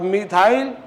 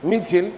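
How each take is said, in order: First: मिथाइल said with a full "-thail" ending; long-i pronunciation. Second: मिथिल said with a short "-thil" ending; easy short "i" in the second syllable of मिथिल; short-i pronunciation. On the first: Teacher comparing effort of two readings, मिथाइल with long "-thail". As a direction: open "aa-i" glide in the second syllable of मिथाइल. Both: Shown as a demonstration. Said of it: "पढ़ते वक्त कम energy किस में".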